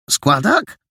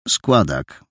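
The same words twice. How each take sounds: First: Higher, rising disbelieving echo; surprised question. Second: Lower, flat one-word answer; curt painter. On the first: Boy repeats the painter's word, higher and rising in surprise. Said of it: "zdziwił się Paragon". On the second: Painter answers the boy curtly, lower. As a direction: cut the question short, lower. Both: Acted.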